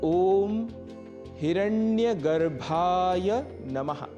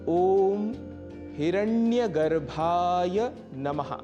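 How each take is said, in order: No difference in how they are said.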